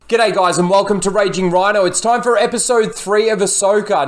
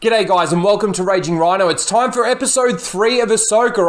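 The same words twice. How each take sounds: First: It is said in a plain, serious tone. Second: It is said with mock, unserious excitement.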